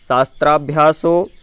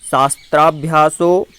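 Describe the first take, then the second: No difference in how they are said.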